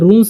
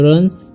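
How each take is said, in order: First: The vowel is a long 'oo' sound. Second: The vowel is a short 'uh' sound. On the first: The speaker calls it wrong. "यहाँ पर रून्स नहीं पढ़ना है" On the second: The speaker calls it right. "यहाँ पर यू का चरण अ होता है।"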